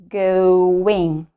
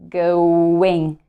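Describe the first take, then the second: The two takes are said the same way.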